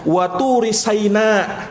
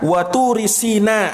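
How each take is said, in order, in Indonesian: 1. Kata terakhir dimulai dengan huruf s dan vokal a. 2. Kata terakhir dimulai dengan huruf s dan vokal i. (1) "dikat di fathah huruf sinnya" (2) "Dalam qiraahnya Ibnu Mas'ud dibaca waturi sina"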